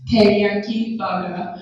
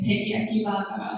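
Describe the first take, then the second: First: Said in the usual way. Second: Flat Japanese-accented "teriyaki burger"; Japanese English accent. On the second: Shown as a demonstration. Teacher showing the menu item, flat Japanese English accent. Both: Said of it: "English accent is really flat".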